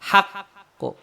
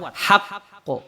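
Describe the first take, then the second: First: The q is released strongly with a bounce. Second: The same.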